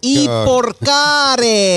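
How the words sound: The word is said in a French accent.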